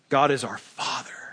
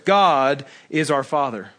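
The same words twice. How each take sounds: First: The word Father is stressed. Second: The word God is stressed.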